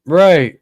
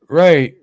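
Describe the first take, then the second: No difference in how they are said.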